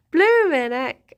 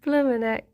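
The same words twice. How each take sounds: First: "Bloomin'" stretched slowly with a rise and fall; long, swooping "Bloomin'" for emphasis; drawn-out exclamation. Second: Said in the usual way. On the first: Real, not acted. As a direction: draw out "Bloomin'" slowly before dropping on "heck". Repeats exclamation more drawn out.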